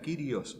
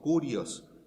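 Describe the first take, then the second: First: The first vowel sounds like 'ee'. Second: The first vowel sounds like 'oo'.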